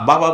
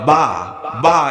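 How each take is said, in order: First: The word is said smoothly as one unit. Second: The syllables are split and said indistinctly. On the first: "বাবা বলে না" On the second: "এরকম উচ্চারণ করে"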